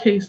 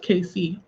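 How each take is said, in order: First: The name is said as one word. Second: The name is said as two separate letters. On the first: The speaker calls it wrong. "Not case though" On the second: The speaker calls it right. "it is K C"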